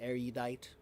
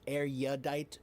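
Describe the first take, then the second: First: The vowel after the r sounds like 'you'. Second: The vowel after the r sounds like 'ya'. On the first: "I pr- pronounce it more with the u sound" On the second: "some people say more of a ya"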